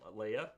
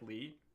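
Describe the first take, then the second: First: The name is said with two syllables. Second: The name is said with one syllable. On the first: The speaker calls it wrong. "I've seen people pronounce her name Leia" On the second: The speaker calls it right. "It's pronounced like Lee"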